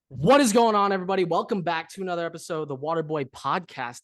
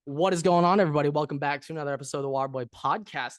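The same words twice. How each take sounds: First: It is said with more energy and gusto. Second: It is said with little energy.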